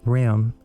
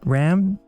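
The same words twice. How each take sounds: First: The vowel is raised toward e, Californian style. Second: The vowel is the usual short a.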